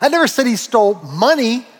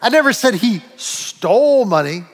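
First: The stress is on "money". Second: The stress is on "stole".

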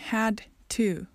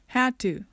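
First: The two words are said separately. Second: The two words are linked into one.

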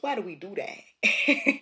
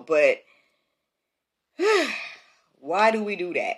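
First: It is said in a New Jersey accent. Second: It is said in the speaker's usual accent.

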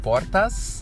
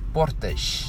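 First: The final S sounds like a plain s. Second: The final S sounds like sh. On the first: "como fala no Brasil" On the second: "eles usam como X"

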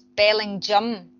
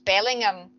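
First: The name is said the local way. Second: The name is said the way it is spelled. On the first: This is how people who live there say it. The speaker calls it right. "That's how the locals pronounce it" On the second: This is how an outsider would guess it. The speaker calls it wrong. "on paper, he'd think it was Bellingham, and it's not"

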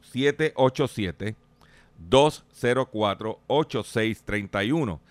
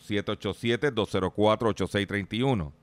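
First: The number is said at a slower pace. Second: The number is said at a faster pace.

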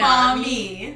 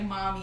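First: The word is said with Spanish pronunciation. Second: The word is said with English pronunciation. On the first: "Like Spanish? Yeah" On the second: "Like mommy in English"

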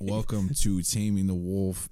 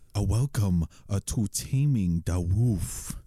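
First: It is said in his normal voice. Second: It is said in a put-on Asian accent.

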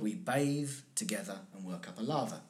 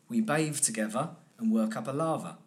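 First: The last word has a th sound in the middle. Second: The last word has a v sound in the middle.

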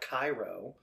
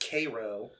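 First: It is said the usual, familiar way. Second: It is said the local Illinois way. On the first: This names the city elsewhere. The speaker calls it wrong. "not Cairo" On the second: This names the town in Illinois. The speaker calls it right. "It's Cairo, Illinois"

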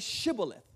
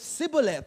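First: It starts with an sh sound. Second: It starts with a plain s sound.

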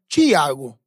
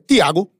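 First: It is said in a São Paulo accent. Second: It is said in a Pernambuco accent.

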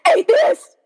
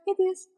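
First: It is said forcefully, with heated emphasis. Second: It is said flatly, with indifferent calm. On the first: The belief is a big deal worth fighting over. "last year I was like" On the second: The belief no longer feels worth arguing about. "this year I'm like"

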